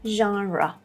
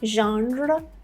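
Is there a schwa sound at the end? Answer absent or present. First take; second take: present; absent. First: A schwa sound is heard at the end. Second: There is no schwa sound at the end. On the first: The speaker calls it right. "it's genre, ah, at the end" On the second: The speaker calls it wrong. "So don't say genre"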